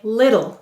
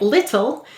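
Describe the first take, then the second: First: The middle consonant is a soft voiced D. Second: The middle consonant is a clear unvoiced T. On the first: "many people say little with a voiced D sound" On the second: "some people say little"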